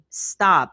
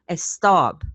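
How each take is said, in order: First: The word begins directly with the s sound. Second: A short eh vowel comes before the s. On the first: The speaker calls it right. "they don't say it stop" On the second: The speaker calls it wrong. "They add the eh"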